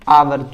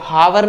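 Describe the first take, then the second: First: The word begins with a vowel sound. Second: The word begins with an h sound. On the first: The speaker calls it right. "इसको पढ़ते हैं आवर।" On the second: The speaker calls it wrong. "इसको हावर नहीं पढ़ते।"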